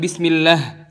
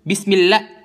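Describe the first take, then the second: First: It ends on the vowel with no h. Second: It ends with a strong breathy h sound. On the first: The speaker calls it wrong. "bukan bismillah" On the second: The speaker calls it right. "Jangan pernah lupa buat nambahin napas tebal terakhir"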